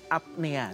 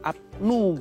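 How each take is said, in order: First: The vowel after 'pn' sounds like 'e'. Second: The vowel after 'pn' sounds like 'u'. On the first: This follows the Latin reading of the spelling. The speaker calls it right. "dalam bahasa Latin O E itu dibaca E, jadi apnea sebenarnya" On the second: This is the Dutch-influenced reading of the spelling. The speaker calls it wrong. "tulisannya kan apnoea dibaca sleep apnu gitu"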